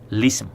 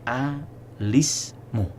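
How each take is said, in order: First: It starts directly with an L sound. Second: It starts with an 'a' vowel before the L. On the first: "isqatu hamzatil wasli wal ibtida bilamin maksuratin" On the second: "al-bad'u bihamzatil wasli maftuhatan ma'a kasril lam"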